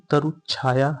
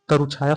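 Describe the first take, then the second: First: "तरुछाया" with a held च्छ after तरु; half-च spelling demo. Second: Said in the usual way. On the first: Shown as a demonstration. Teacher showing students the spelling, "तरुछाया" said with an added half च. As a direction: say "तरुछाया" as तरु-च्छाया, doubling the च. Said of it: "यहाँ आधा च होगा". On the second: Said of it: "शब्द के लिए वर्तनी".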